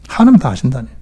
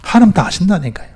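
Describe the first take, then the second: First: Said in the usual way. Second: 하나님 pitched high and stressed, falling tune; emphatic. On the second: Shown as a demonstration. Preacher insisting 하나님 knows, emphatic high 하나님. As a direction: push 하나님 high, then let it fall.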